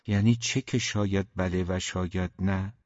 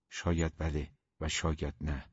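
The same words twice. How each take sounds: First: "شاید بله و شاید نه" echoed as a question; puzzled echo question. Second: Low, soft noncommittal reply; evasive answer. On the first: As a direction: query "شاید بله و شاید نه", asking what it means. Puzzled echo of the evasive answer. («شاید بله و شاید نه» با لحن پرسشی) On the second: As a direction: leave it open, quietly. Evasive answer, then echoed as question. (جواب سربسته با صدای آرام) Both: A narrator's reading.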